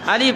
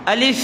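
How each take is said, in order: The two takes are said the same way.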